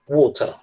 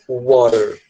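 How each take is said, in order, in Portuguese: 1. O t do meio é um t claro e forte. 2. O t do meio é um som suave, parecido com um r batido. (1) "o T para eles é um T mesmo" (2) "nunca water"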